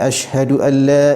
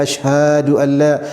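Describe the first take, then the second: First: The vowels keep their normal length. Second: A vowel is drawn out too long. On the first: The speaker calls it right. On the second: The speaker calls it wrong.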